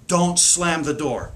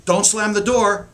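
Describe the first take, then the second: First: Slow, even don't slam the door; said slowly and level; slow calm command. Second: Higher, louder don't slam the door; snapped parental order; sharper command. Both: Shown as a demonstration. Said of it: "their brain does not register the negative".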